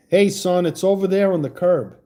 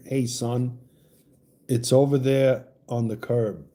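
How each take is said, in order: First: Said in the usual way. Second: Southern accent. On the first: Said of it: "will you say". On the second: Shown as a demonstration. Host asks the Oklahoma caller to say a line in her accent. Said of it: "Your accent, will you say".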